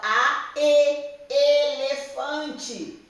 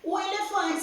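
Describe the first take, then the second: First: Slow spelling out. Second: Said in the usual way. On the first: Shown as a demonstration. Teacher to young pupils, spelling elefante slowly. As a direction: stretch each vowel, then say elefante very slowly. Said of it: "É a segunda vogal". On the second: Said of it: "você sabe como que escreve elefante".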